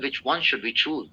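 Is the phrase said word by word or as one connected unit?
connected. All words run together like one long word. The speaker calls it right. "आपको इस पूरे sentence को एक वर्ड की तरह ट्रीट करना होता है"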